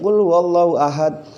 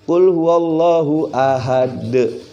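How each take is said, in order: First: The final consonant ends flat, without an echoing bounce. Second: The final consonant ends with a clear echoing bounce. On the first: The speaker calls it wrong. "berarti belum tajwid ya" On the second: The speaker calls it right. "Harus mantul"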